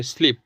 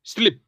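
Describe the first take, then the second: First: स्लीप with a long ee, like sleep; स्लीप said as sleep meaning सोना. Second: स्लिप with a short i, like slip; स्लिप said as slip meaning फिसलना. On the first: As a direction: hold the vowel in स्लीप. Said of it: "इसे बोलेंगे स्लीप". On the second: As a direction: clip the vowel in स्लिप. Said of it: "पर अगर बोला स्लीप". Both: Shown as a demonstration.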